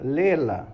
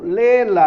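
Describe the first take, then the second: First: Said in the usual way. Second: Louder, a firm pastoral command; firm insistence. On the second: Shown as a demonstration. Pastor insisting to the tired youth, firmly louder. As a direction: press it on him, no excuses.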